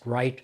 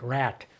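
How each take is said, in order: First: The word is said with a plain vowel. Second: The vowel is flattened, sounding like rat.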